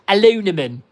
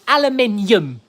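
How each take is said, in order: First: It is said with an American pronunciation. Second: It is said with a British pronunciation. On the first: The speaker calls it wrong. "You speak American English, like aluminum" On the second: The speaker calls it right. "Speak properly"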